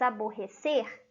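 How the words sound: It is pronounced with Portuguese sounds. It means to annoy or irritate someone. "em português aborrecer"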